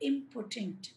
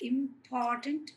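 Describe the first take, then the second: First: The stress is on the first syllable. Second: The stress is on the second syllable. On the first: The person is incapable. The speaker calls it wrong. "carries the stress in the word important on the first syllable which sounds like impotent" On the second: The person matters a lot. The speaker calls it right. "Second syllable మీద ఇచ్చాడు అనమాట"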